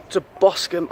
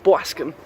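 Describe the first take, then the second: First: Said in the usual way. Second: Boscombe in a New York accent, "Bwaskum". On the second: Shown as a demonstration. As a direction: say Boscombe like a New Yorker, lower. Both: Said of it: "I always say it in a New York accent".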